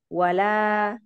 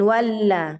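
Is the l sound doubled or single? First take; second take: single; doubled. First: The l sound is short and single. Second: The l sound is pressed and doubled. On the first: The speaker calls it right. "Tidak ada tasdid pada lam" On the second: The speaker calls it wrong. "Jangan ditekan. Jangan wala"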